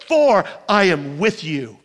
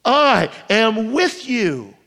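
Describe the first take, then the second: First: Lower, gentle promise; tender promise. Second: Slow tender echo. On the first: God's promise quoted. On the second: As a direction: let it land slowly and gently. Repeated promise, slowed. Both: Acted.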